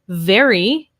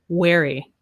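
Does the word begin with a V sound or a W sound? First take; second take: V sound; W sound. First: The word begins with a V sound. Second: The word begins with a W sound. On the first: The speaker calls it right. "instead of very" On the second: The speaker calls it wrong. "Use the W instead of the V"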